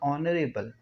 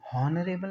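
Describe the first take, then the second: First: The word begins with a vowel sound. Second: The word begins with an h sound. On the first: The speaker calls it right. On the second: The speaker calls it wrong. "हॉनरेबल नहीं"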